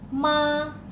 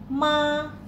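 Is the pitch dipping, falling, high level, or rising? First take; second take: high level; high level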